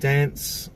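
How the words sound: It is said with an eastern Australian accent. "which is eastern states as well"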